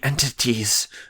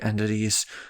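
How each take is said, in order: First: The word is said with exaggerated, careful articulation. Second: The word is said casually and naturally. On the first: "they enunciate it like that every single time" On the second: "they don't say like entities"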